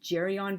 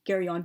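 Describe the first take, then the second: First: It begins with a soft G sound. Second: It begins with a hard G sound. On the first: It follows the Italian way of reading the name. "the letter G is always soft in Italian" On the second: It follows the name's Greek origin. "I think it would be a hard G"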